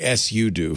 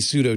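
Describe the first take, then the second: First: The word ends with an 'oo' sound. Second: The word ends with an 'oh' sound. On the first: "It's supposedly sudo for switch user do" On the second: "I say pseudo too"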